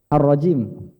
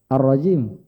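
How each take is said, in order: The two takes are said the same way.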